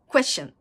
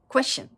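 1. 語尾は短くなった shun のように発音します。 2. 語尾は短くなった shun のように発音します。

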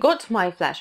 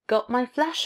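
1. Звук t в 'got' чётко произносится. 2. Звук t в 'got' — это гортанная смычка. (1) "Но t не произносите, не got my flash" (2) "с glottal stop"

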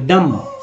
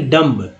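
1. शब्द m ध्वनि पर खत्म होता है। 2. शब्द b ध्वनि के साथ खत्म होता है। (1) "डम न कि डम्ब" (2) "न कि डम्ब"

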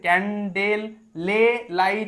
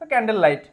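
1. 'light'-এর আগে একটি অতিরিক্ত 'le' ধ্বনি আসে। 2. 'light'-এর আগে কোনো অতিরিক্ত ধ্বনি আসে না। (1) "এরকম নয় কিন্তু" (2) "তো ক্যান্ডেল লাইট"

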